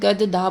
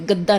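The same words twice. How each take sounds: First: A vowel separates the two d sounds. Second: The two d sounds join as a double consonant. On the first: This is how it reads without the halant mark. The speaker calls it wrong. "हलंत नहीं लगाया तो इसको क्या पढ़ा जाएगा, आप गद्दा बोलोगे" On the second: This is how it reads with the halant mark. The speaker calls it right. "गद्दा नहीं बोलोगे"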